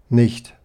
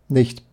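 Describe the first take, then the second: The two takes are said the same way.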